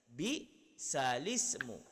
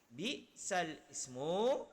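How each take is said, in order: First: The l runs straight into the following vowel. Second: A glottal catch starts the vowel after 'sal'. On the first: The vowel of the glottal stop moves onto the l. "baris kasrah pada hamzah dipindah kepada lam. Jadi dia menjadi bi salismu" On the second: This is the original form of the words. "Asal perkataan bi sal ismu"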